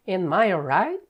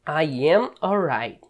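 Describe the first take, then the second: First: "Am I alright?" rising as a question; question rise. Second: "I am alright" falling like a statement. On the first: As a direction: lift "Am I alright?" at the end like a real question. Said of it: "pra pergunta". (pergunta com entonação subindo em "Am I alright?") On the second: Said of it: "Se fosse sem ser pergunta". (afirmação com entonação descendente em "I am alright") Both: Shown as a demonstration.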